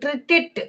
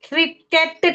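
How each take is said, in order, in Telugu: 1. చివరి అక్షరం 'it' లా పలకబడుతుంది. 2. చివరి అక్షరం 'et' లా పలకబడుతుంది. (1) "ఇట్ ఇట్ అని పలకాలమ్మా" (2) "క్రికెట్ కాదు, ఎట్ కాదు"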